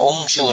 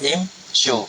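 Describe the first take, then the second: First: The word begins with a u vowel. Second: The word begins with an i vowel. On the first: The speaker calls it wrong. "ada kata umsyu dah" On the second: The speaker calls it right. "baca dengan kasrah imsyu"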